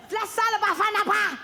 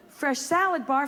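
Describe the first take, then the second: First: Mock deli-vendor accent, higher; imitating a street vendor's sales call; broken English. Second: Said in the usual way. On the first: Deli vendor calling out his salad bar, mock accent. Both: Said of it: "when you heard someone say".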